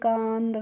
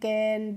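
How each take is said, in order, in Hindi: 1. स्वर एक लंबी खुली 'ah' ध्वनि है। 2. स्वर एक छोटी सपाट 'a' ध्वनि है। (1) "इस तरीके से नहीं प्रोनाउंस करना है" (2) "कैसे करना है"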